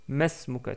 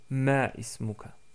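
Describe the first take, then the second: First: The words run together without the middle vowel. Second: The middle vowel is said, keeping two words. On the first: "prononcer masmuka tout court" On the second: "au lieu de ma ismuka"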